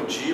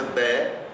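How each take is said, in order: First: The word ends in an i sound. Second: The word ends in an e sound. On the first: The speaker calls it wrong. "não digam di, porque di em português" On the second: The speaker calls it right. "a gente usa de"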